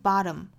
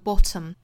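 First: The t is a quick tongue flap. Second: The t is a full, crisp burst. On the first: "美音是 bottom" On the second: "英音的话是爆破十足的 bottom"

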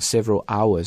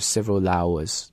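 First: The two words are said separately. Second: The l sound links into the next word. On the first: The speaker calls it wrong. "所以不要读成 several hours" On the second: The speaker calls it right. "而是 several hours"

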